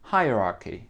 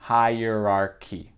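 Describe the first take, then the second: First: It is said in a British accent. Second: It is said in an American accent.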